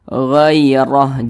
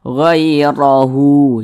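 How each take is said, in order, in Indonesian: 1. Kata ini berhenti pada 'h' mati di akhir. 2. Kata ini berakhir dengan vokal 'u' yang ditambahkan. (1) "huruf H ini kita sukunkan atau kita matikan" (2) "Jangan dibaca"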